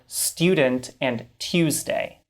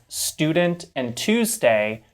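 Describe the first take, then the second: First: A y sound follows the t and d. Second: No y sound follows the t or d. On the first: This is how some Canadians say it. "This little y sound that these speakers add" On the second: This is the speaker's own pronunciation. "words that I would pronounce as"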